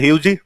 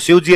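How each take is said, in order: First: The word begins with an h sound. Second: The word begins with an s sound.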